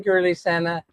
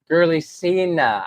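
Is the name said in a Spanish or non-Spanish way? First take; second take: Spanish; non-Spanish. First: The name is pronounced in a Spanish-style way. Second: The name is pronounced in a non-Spanish way. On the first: The speaker calls it wrong. "I keep saying Girly Senna" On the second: The speaker calls it right. "but it's Cena, right? ... as opposed to the way the Spanish would pronounce it"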